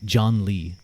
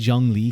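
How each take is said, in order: First: The name sounds like the English name John Lee. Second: The name keeps its original Chinese sounds.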